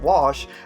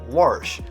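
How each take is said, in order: First: It is said without an R sound. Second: It is said with an R sound inside.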